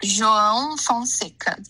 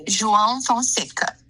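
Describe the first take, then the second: First: "João Fonseca" drawn out, each part clearly separated; slow demonstration. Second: "João Fonseca" run together more quickly; a little faster. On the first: Teacher says the player's name on request, slowly. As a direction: pronounce "João Fonseca" slowly and carefully for a learner. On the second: Teacher repeats the name on the student's request, faster. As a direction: say "João Fonseca" at a more natural, connected speed. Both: Shown as a demonstration. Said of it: "Can you say it a little bit faster?".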